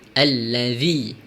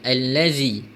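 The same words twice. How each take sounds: First: The middle consonant is a voiced 'th' sound. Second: The middle consonant is a 'z' sound. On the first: The speaker calls it right. "perlulah baca dengan huruf zal" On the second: The speaker calls it wrong. "bukan allazi"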